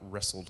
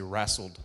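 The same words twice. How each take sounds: First: It is said in a general, non-Texan accent. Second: It is said in an East Texas accent. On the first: "not wrestled" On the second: "If you're in East Texas, you say wrestled"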